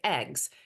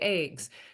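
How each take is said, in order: First: Eggs is said with a non-Midwestern vowel. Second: Eggs is said with a Midwestern vowel.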